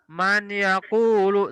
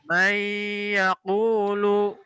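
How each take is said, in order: First: The n is said plainly, not merged. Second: The n merges into y with a nasal hum. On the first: The speaker calls it wrong. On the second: The speaker calls it right. "dileburkan dengan huruf ya. Maka menjadi may sambil didengungkan"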